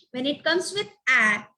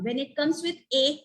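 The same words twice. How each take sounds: First: "A" said as the short vowel in cat; short A sound. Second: "A" said as "ay", as in day; long "ay" on "A"; long A sound. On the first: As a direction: demonstrate "A" as "aah", not "ay". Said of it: "it becomes R sound". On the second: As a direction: demonstrate "A" by its letter name. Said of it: "it becomes er sound". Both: Shown as a demonstration.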